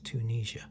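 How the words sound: The name is said with an American pronunciation. "I think it's Tunisia in America"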